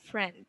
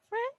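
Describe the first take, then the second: First: "Friend" softer and dropping low; falling intonation. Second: "Friend" lifted as a question; rising intonation. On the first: Teacher contrasts the last word, falling intonation. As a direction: let "Friend" fall to a close. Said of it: "not answerable by yes or no". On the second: Teacher contrasts the last word, rising intonation. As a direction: flick "Friend" upward. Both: Shown as a demonstration.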